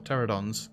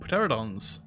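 First: The word starts without any P sound. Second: The word starts with an audible P sound. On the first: The speaker calls it right. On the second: The speaker calls it wrong.

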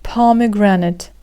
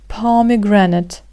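The two takes are said the same way.

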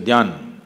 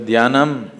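First: It ends clipped without the final syllable. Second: It ends with the full final syllable.

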